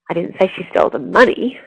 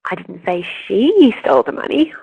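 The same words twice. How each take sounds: First: The stress falls on the word money. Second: The stress falls on the word she. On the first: She stole something else. "but actually she stole the car" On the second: Someone else stole it. "someone else did steal it"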